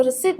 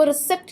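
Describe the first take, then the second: First: रिसीट with long ee and silent p; right pronunciation. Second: रिसिप्ट with the p sounded; wrong pronunciation. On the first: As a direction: say रिसीट ending in "seet". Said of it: "वो रिसिप्ट कहते हैं". (रिसीट का सही उच्चारण, "प" मौन) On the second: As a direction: mispronounce रिसिप्ट, ending in "sipt". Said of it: "जो कि गलत है". (रिसिप्ट का गलत उच्चारण, "प" बोलकर) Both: Shown as a demonstration.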